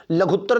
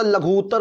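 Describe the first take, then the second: First: लघुत्तर with a short u before tt; wrong form. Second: लघु उत्तर joined on a long oo; correct form. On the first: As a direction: say लघुत्तर run together as "la-ghut-tar". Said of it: "नहीं होता". (गलत लघुत्तर, छोटे उ के साथ) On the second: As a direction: say लघु उत्तर as "la-ghoot-tar". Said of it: "होता". (लघु उत्तर को "लघूत्तर" बोलें, लंबा ऊ) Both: Shown as a demonstration.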